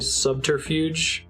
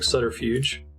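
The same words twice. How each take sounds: First: Every syllable is clearly and separately pronounced. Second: The syllables are said quickly and run together. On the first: "enunciate all of the syllables of that word" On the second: "say it really fast like"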